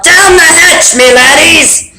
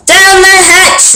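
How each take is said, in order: First: Higher, toasting yell; captain yelling a toast, higher; pirate yell. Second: High, slow shout; crew shout. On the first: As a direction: roar a toast at the table. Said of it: "pounded his fist on the table and yelled". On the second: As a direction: shout it back together. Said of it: "we all shouted". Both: Acted.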